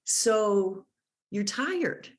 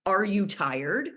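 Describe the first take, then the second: First: "So you're tired." with a pause after So, the voice falling at the end; statement tune. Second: "Are you tired?" with the voice rising at the end; rising question. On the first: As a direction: offer "So you're tired." as a calm guess. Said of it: "you would actually say". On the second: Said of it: "So instead of". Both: Shown as a demonstration.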